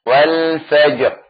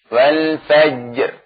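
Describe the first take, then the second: No difference in how they are said.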